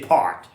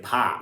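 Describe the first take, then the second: First: It is said with a New York accent. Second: It is said with a Boston-like accent.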